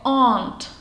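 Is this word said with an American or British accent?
British. It is said with a British accent, unlike 'and'. "A tetu vyslovují jako aunt"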